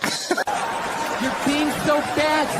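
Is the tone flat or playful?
playful. It is said in a playful, teasing tone.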